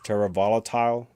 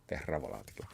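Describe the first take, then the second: First: Volatile is pronounced as the English word. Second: Volatile is pronounced as a Latin word. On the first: The speaker calls it wrong. "People pronounce it as Terra Volatile" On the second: The speaker calls it right. "but it's Latin"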